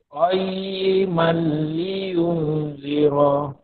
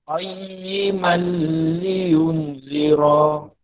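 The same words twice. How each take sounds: No difference in how they are said.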